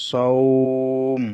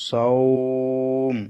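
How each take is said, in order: No difference in how they are said.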